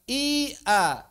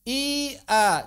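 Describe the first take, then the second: The two takes are said the same way.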